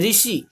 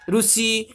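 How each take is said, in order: First: The first syllable is pronounced 'ri'. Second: The first syllable is pronounced 'ru'. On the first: This is how Hindi speakers say it. "Hindi में क्या बोलते हैं" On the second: This is how Odia speakers say it. "Odia में ज- ज- जैसे बोलते हैं कि रूसी"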